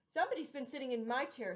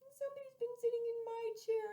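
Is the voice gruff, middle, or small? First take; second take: middle; small. First: The voice is medium in pitch and size. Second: The voice is small, high and tiny. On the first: The middle-sized bear is speaking. "in a middle voice" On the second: The smallest bear is speaking. "in her little, small, wee voice"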